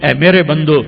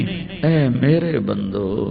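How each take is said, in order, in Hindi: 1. यह सादे, ठंडे लहजे में कहा गया है। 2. यह गर्म, नरम लहजे में कहा गया है।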